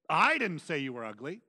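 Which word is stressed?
I. The stress falls on the word I. Someone else said it. "which means someone else said you"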